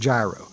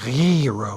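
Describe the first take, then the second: First: The word begins like the start of gyroscope. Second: The word is said with a harsh, phlegmy sound. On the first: This is the everyday way the speaker says it. "It's like a gyroscope" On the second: This is the correct Greek way to say it. "some sort of phlegmy way"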